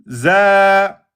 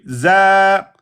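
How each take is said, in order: No difference in how they are said.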